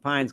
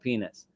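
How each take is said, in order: First: The surname is said as one syllable. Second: The surname is said as two syllables. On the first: This is the habitual way of saying it. The speaker calls it wrong. "I keep calling him Pines because that's how I'm pronouncing him my whole life" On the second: This is the proper way of saying it. The speaker calls it right. "the proper pronunciation of his name is"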